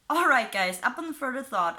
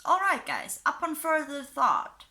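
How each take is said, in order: First: Said in the usual way. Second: Pitched up high on the opening; odd-sounding read. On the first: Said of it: "but that even sounded weird to me". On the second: Shown as a demonstration. Vlogger reading a fan post aloud, oddly pitched up high. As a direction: reads the post's opening oddly high and stilted. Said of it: "I don't know why that sounded".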